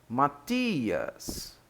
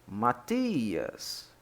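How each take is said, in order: The two takes are said the same way.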